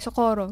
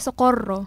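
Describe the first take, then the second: First: The r is a light, plain sound. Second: The r is a strong rolled trill. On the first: This is the local Filipino way of saying it. "di ba sa atin, yung barangay, socorro, ganun lang" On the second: This is the native Spanish way of saying it. "Pero sa kanila, socorro"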